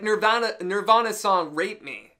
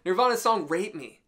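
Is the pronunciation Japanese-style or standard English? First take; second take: Japanese-style; standard English. First: It is said with a Japanese-style pronunciation. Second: It is said with a standard English pronunciation.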